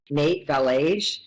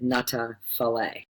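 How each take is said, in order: First: The name is read with English spelling sounds. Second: The name is said with Afrikaans sounds. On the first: "where it to us would say" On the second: "that's actually how you pronounce it"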